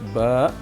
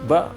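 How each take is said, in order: First: The vowel is lengthened and ends in a glottal stop. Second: The vowel is short with no glottal stop. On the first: The speaker calls it right. "ada panjang sedikit" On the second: The speaker calls it wrong. "bukan ba"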